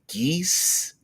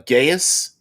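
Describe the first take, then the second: First: It is said with one syllable, like 'geese'. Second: It is said with two syllables, like 'guy-us'. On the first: This is the current way it is said. "now it's it's like geese" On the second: This is the older way it was said. "we used to pronounce it"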